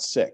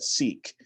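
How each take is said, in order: First: The vowel is a short i sound. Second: The vowel is a long ee sound. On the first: The speaker calls it wrong. "not sick" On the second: The speaker calls it right. "They say that they pronounce that seek"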